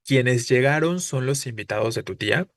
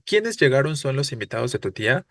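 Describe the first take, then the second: First: "Quiénes" unstressed, weight on "llegaron", question rise kept for the end; "Quiénes" light as a relative, only the end asks. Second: Strong stress on "Quiénes", question tune from the start; "Quiénes" punched, whole line as a question. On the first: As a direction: let "Quiénes" slide by and lean on "llegaron". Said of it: "Tendríamos que decir". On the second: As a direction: hit "Quiénes" as the asking word, the wrong way. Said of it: "cómo la entonación no tiene sentido". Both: Shown as a demonstration.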